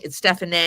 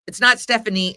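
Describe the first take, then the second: First: "Stephanie" with the accent aigu, ending in a clear ay: stef-ah-NAY; correct pronunciation. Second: "Stephanie" said the usual English way, STEF-uh-nee ending in a plain ee; the common "Stephanie" with an ee ending, as people get it wrong; wrong pronunciation. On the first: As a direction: say "Stephanie" like the French spelling, the last syllable an ay sound. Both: Shown as a demonstration. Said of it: "It's spelled S T E F A N E, accent aigu".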